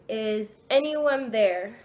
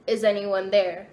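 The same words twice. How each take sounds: First: Slow, stretched-out call to a spirit; slow questioning call, lifting at the end; drawn-out repeated question. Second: Said in the usual way. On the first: Retold or imitated. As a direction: ask it slowly, letting each word hang. Asks the board again, no response.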